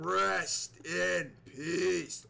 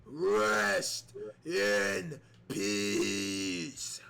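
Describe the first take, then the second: First: Slow, drawn-out rest in peace; slow mock Undertaker intone; Undertaker catchphrase. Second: Low, very slow rest in peace; slow low mock Undertaker; Undertaker's thought. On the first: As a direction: stretch each word out like the Dead Man. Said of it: "Undertaker catchphrase in commentary". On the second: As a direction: draw it out deep and ominous like the Dead Man. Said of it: "he could be thinking".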